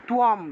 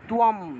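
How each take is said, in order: First: It has a w glide and ends in m. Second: The same.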